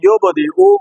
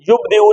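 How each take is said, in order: First: The b is released with an echoing bounce. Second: The b is held without an echoing bounce. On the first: The speaker calls it right. "बल्कि क्या बोलेंगे?" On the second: The speaker calls it wrong. "युबदिउ नहीं बोलेंगे"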